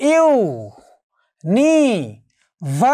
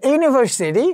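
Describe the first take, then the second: First: university very slowly, five syllables with long gaps; university stretched, every syllable isolated. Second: Said in the usual way. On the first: Shown as a demonstration. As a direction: count out ইউ-নি-ভার-সি-টি, one sound at a time. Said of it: "syllable কয়টি বা অক্ষর কয়টি". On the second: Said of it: "তা university".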